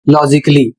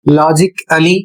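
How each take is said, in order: First: The ending is said as a short 'lee'. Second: The ending is said as a full 'ally'. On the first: The speaker calls it right. "सही उच्चारण" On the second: The speaker calls it wrong. "आप गलत पढ़ रहे हैं"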